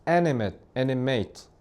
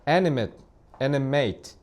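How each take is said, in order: No difference in how they are said.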